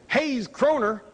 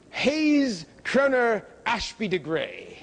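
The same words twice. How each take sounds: First: Said in the usual way. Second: Put-on slow, plummy British accent on the new name; mock British accent. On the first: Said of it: "instead of the Georgia-born". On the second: Lecturer mocks the general's adopted British name, slow British accent. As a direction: drawl the name out like an English toff in a British accent. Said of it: "he adopted a British accent".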